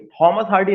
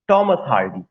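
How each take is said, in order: First: Thomas starts with a breathy, aspirated T sound. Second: Thomas starts with a plain, unaspirated T sound. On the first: The speaker calls it wrong. "हम लोग था निकालते हैं ... थॉमस Hardy नहीं" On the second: The speaker calls it right. "टी को हमेशा टा के सेंस में"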